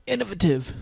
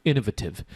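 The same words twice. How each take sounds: First: "Innovative" in a playful, much higher posh-British put-on; British accent. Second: Said in the usual way. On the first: Shown as a demonstration. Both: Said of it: "Hanan loves my British accent".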